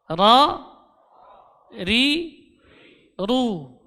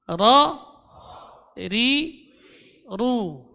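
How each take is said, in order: The two takes are said the same way.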